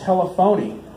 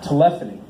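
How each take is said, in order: First: Said as tele-phony, ending like the word phony. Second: Said as teLEphony, stress on the second syllable. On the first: The speaker calls it right. "back in the day, we called that telephony" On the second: The speaker calls it wrong. "I think they're pronouncing that wrong"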